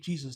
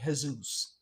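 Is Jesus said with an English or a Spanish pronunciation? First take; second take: English; Spanish. First: The name is said with an English pronunciation. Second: The name is said with a Spanish pronunciation. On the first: "they don't say Jesus" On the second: "Spanish people ... they say Jesus"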